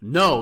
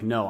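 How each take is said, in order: First: It is said firmly and seriously, with force. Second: It is said mildly, without much force. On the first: A serious, final refusal. "I mean like no" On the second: A casual refusal that may not be final. "I don't mean just like no"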